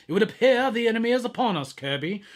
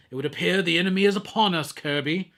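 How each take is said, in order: First: Higher, fast solemn prophet voice. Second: Lightly voiced solemn prophet, fast; a hint of a grave prophet, rushed; Prophet voice, quick first try. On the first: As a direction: proclaim it like a biblical prophet. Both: Shown as a demonstration. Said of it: "that's my Prophet voice from now on".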